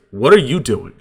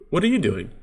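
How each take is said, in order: First: Louder, pointed "what are you doing"; confrontational tone. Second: Softer, higher-pitched "what are you doing"; soft questioning tone. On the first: Same words to your spouse, different message, loud confrontational tone. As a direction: demand it, hitting the words hard. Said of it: "different message". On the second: Speaking to your spouse or partner, soft questioning tone. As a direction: ask it lightly, pitch lifting mid-phrase. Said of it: "Just in that tone". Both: Shown as a demonstration.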